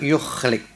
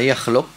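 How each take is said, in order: First: The first vowel is u, the second i. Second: The first vowel is a, the second u. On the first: "bi dhammil ya wa kasril lam" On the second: "bi fathil ya wa dhammil wa dhammil lam"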